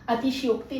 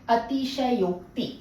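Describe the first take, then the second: First: The middle is contracted to 'shyo'. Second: The middle is said in full as 'shay-o'. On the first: The speaker calls it wrong. "अतिशयोक्ति नहीं बोला जाता।" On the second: The speaker calls it right. "क्या बोला जाता है?"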